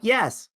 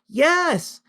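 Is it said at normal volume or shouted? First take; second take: normal; shouted. First: It is said at normal volume. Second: It is shouted very loudly.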